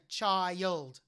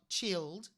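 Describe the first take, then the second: First: The vowel glides between two sounds. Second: The vowel is a single short pure sound. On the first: The speaker calls it right. "you'd say child. I for the letter I. So it's a diphthong" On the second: The speaker calls it wrong. "You wouldn't say the, the word child chilled"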